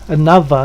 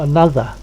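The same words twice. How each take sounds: First: The middle consonant is a v sound. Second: The middle consonant is a th sound. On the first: "with a v, another" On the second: "not another"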